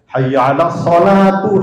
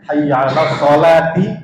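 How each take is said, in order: First: Sholat ends with a 'u' vowel. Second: Sholat ends with an 'i' vowel. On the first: The speaker calls it wrong. "para muazin kita keliru" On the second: The speaker calls it right. "Jadi yang sesungguhnya"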